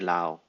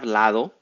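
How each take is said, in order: First: The middle d sound is dropped. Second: The middle d sound is pronounced. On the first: "we say lao" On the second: "Then we have lado"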